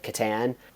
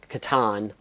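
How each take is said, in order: First: It is not said like katana. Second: It is said like the start of katana. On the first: This is the popular pronunciation. "everyone since in popular culture has said Catan" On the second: This is the creator's family's pronunciation. "it's Catan, like katana"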